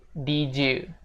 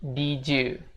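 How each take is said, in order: The two takes are said the same way.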